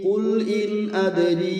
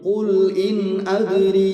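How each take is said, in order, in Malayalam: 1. ഓരോ വാക്കും അടുത്തതിൽ നിന്ന് വ്യക്തമായി വേറിട്ടു നിർത്തുന്നു. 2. ഓരോ വാക്കും അടുത്തതിൽ നിന്ന് വ്യക്തമായി വേറിട്ടു നിർത്തുന്നു.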